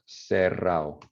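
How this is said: The d between vowels is dropped.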